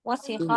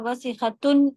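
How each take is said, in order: First: The word ends without the final -tun ending. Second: The word ends with the full -tun ending. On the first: The speaker is stopping at the end of the phrase. "आखिर वाला साइलेंट करके बोलते हैं" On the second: The speaker is not stopping on this word. "वरना वसीखतुन बोला जाएगा"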